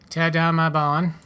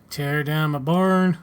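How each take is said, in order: First: "barn" with a dropped R, open long vowel; barn without the R. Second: Slow line, "barn" drawn out with a full R; barn with strong R. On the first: Farmer asks for demolition, "barn" said without its R. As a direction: say "barn" as "bahn", firmly. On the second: Farmer's line redone after a slip, slow, "barn" with a strong drawn-out R. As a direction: stretch "barn" toward "born", R sounded. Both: Shown as a demonstration. Uh, no, whoops.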